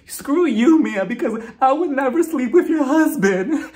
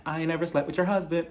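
First: Loud, high hammed-up wail; mock crying and screaming. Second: Soft, understated practice take; mock line rehearsal. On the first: Host imitates Jacqueline's big scene, loud mock sobbing scream. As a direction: overact a tearful screaming denial. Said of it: "she starts crying and screaming". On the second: Host plays Jacqueline rehearsing her denial, soft mock run-through. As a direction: quietly test the line before the big take. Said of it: "I forgot my script".

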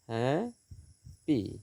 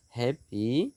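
First: "happy" very slowly as হ্যা, long gap, পি; split into syllables. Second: Said in the usual way. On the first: Shown as a demonstration. Teacher dividing syllables for students, "happy" slowly split in two. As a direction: draw out and separate both halves of "happy". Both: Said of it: "syllable বিভাজন".

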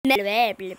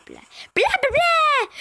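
First: Blahs dropped low in pitch; low nonsense babble. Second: Blahs squealed way up high; high nonsense babble. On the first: Playing with nonsense syllables. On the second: Same babble, thrown up high. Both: Pretend.

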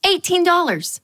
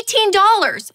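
First: "eighteen dollars" read plainly; just note the price; stated price. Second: "Eighteen dollars" high and louder, aghast; shocked price. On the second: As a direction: cry out the price in disbelief. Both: Shown as a demonstration.

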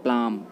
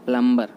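First: प्लाम with no b; प्लाम with a long a, ending on m; correct pronunciation. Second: प्लम्बर with the b sounded; प्लम्बर with short u and hard b; common mispronunciation. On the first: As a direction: say प्लाम as 'plaam'. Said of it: "हम इसको बोलते हैं". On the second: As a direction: say प्लम्बर as 'plum-ber', loud. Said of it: "प्लम्बर नहीं बोलते". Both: Shown as a demonstration.

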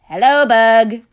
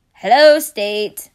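First: Louder character voice for the state; louder put-on greeting. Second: Slow, louder little creature voice; slow bug voice. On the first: Pennsylvania greeting the bug, louder put-on voice. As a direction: boom a friendly hello. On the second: Acted. Bug answering Pennsylvania, slow creature voice. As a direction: drag the hello out like a bug.

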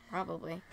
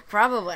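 First: Muttered dry aside; quiet. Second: Loud laughing repeat; louder. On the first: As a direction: say it under your breath. Dry aside, then repeated louder. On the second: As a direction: blurt it out loud after laughing. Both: Real, not acted.

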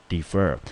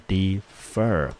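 First: Said in the usual way. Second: "defer" slowly split into de and fer; syllable by syllable. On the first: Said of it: "我们念成defer". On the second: Shown as a demonstration. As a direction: draw out defer as two separate syllables. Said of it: "来，我们念成defer". (把 defer 拆成两个音节慢慢念)

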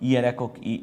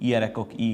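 The two takes are said the same way.

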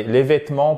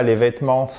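First: Said in the usual way. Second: "vêtements" with the silent final S pronounced; sounded final S. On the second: Shown as a demonstration. Teacher questioning French spelling to learners, final S sounded in "vêtements". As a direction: say the written S ending "vêtements". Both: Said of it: "Pourquoi je prononce pas le S?".

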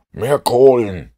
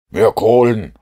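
First: Higher, much louder, slow drawn-out yell; slow shout. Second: Higher, much louder shout. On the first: Holmes shouts again into the engine room, slow and loud. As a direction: bellow it down to the stokers. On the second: Holmes shouts into the engine room for more coal. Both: A narrator's reading. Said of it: "schrie Holmes".

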